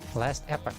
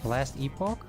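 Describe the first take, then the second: First: Epoch sounds almost like epic here. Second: Epoch does not sound like epic here.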